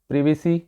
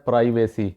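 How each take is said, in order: First: The first syllable sounds like 'priv'. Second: The first syllable sounds like 'pry'. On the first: The speaker calls it right. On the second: The speaker calls it wrong.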